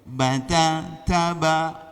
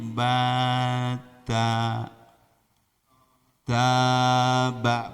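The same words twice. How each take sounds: First: The syllables come in a steady, even beat. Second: The syllables come in an uneven, loose rhythm. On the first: The speaker calls it right. "harus ketukan" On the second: The speaker calls it wrong. "jangan sampai anak gini bata taba, bukan begitu"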